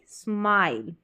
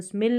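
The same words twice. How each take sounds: First: स्माइल with a long gliding "aai"; long-vowel smile. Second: स्मिल with a short "i", like "smil"; wrong short-vowel smile. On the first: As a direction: open the vowel of स्माइल wide into "eye" before the l. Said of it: "long उच्चारण". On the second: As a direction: clip the vowel of स्मिल to rhyme with "mill". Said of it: "इसको स्मिल नहीं". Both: Shown as a demonstration.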